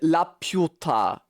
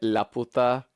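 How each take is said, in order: First: The p is followed by a y glide before u. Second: The p is followed directly by a plain u. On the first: The speaker calls it right. "Put like a I in there" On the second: The speaker calls it wrong. "they were pronouncing it La Puta"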